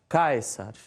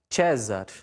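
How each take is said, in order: First: It uses the reconstructed classical Latin pronunciation. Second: It uses the ecclesiastical Latin pronunciation. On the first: "na pronúncia reconstituída" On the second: "Na pronúncia eclesiástica"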